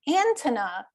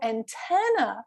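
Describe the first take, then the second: First: The stress falls on an unexpected syllable. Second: The stress falls on the expected syllable. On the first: The listener cannot recognize the word. The speaker calls it wrong. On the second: The listener recognizes the word. The speaker calls it right.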